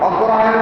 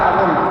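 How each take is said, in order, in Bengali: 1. নামটি পুরো বলা হয়েছে, 'ogrohayon'। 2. নামটি সংক্ষেপে বলা হয়েছে, 'agun'। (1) "সঠিকভাবে উচ্চারণ" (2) "বিকৃতি করা হচ্ছে ... এটা ঠিক নয়"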